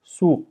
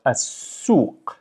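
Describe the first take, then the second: First: Said in the usual way. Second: "as-suq" drawn out on a long s; emphasized double s. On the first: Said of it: "But as-suq, it's emphasized". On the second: Shown as a demonstration. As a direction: slowly hold the s through "as-suq". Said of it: "it's emphasized".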